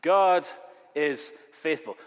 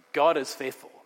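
First: God hammered out, then is faithful; stress on God. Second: Said in the usual way. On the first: Shown as a demonstration. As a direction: hit God hard and hold a beat. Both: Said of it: "the Greek has an emphatic word".

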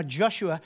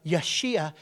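First: Said in the usual way. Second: Yeshua said yeh-SHOO-ah, the Hebrew form. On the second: Shown as a demonstration. Preacher gives the Hebrew name of Joshua, Yeshua in Hebrew. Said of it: "in Hebrew, his name is".

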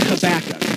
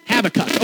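First: Habakkuk said ha-BAK-uk, stress on the second syllable; Habakkuk as hə-BÆK-ək, middle syllable stressed; old pronunciation. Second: Habakkuk said HAB-a-kuk, stress on the first syllable; Habakkuk as HÆB-ə-kʌk, first syllable stressed; new pronunciation. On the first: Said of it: "I've always said Habakkuk". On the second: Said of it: "now I'm switching to". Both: Shown as a demonstration.

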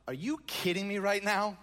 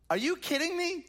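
First: Said in the usual way. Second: Pitched much higher in incredulous outrage; can you believe this guy, up high; outraged disbelief. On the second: Acted. Repeats question, much higher.

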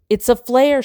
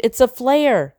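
First: Raised, urgent scream. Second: High, urgent repeated scream; screaming again. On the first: Tumble screams at Greg while her backpack burns. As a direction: shout the warning up high. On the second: Tumble repeats her scream at Greg over the burning bag. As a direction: push the warning out once more. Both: Acted. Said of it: "she screamed".

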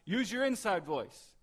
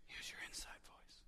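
First: Loud, high shouted command; shouting the phrase at full volume. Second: Soft unvoiced whisper; whispered gently as a hushing parent. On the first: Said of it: "you don't hear somebody say it like". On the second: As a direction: hush it like a finger to the lips. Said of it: "it's very quiet". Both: Shown as a demonstration.

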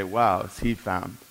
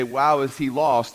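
First: Drawn-out admiration. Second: Drawn-out amazement. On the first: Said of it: "we would look at the other and say". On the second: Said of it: "we would look at one and say". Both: Retold or imitated.

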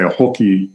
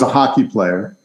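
First: "hooky" with a tentative Canadian vowel; attempted Canadian accent. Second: Said in the usual way. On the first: Roommate from Ontario naming his sport, attempted Canadian accent. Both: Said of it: "I can't do the accent".

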